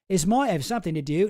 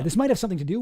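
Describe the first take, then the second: First: It is said in a Cockney-sounding accent. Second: It is said in the speaker's normal accent. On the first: "Now I'm going Cockney" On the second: "I'm going to stop"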